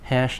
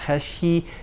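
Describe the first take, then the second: First: The word ends cleanly on the sh sound. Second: An extra vowel is added after the sh sound. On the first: The speaker calls it right. "Hash, not hashy" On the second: The speaker calls it wrong. "not hashy"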